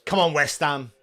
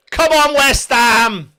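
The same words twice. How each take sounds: First: Said in the usual way. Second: High, loud, drawn-out fan cheer; rallying shout. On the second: Real, not acted. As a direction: roar the team on slowly. Cheering the team, louder repeat.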